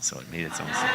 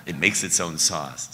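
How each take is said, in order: First: Said in the usual way. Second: Loud ad slogan read; commercial voice. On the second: Retold or imitated. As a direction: pitch it like a TV ad. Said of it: "like the Gravy Train commercial".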